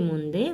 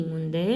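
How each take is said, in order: No difference in how they are said.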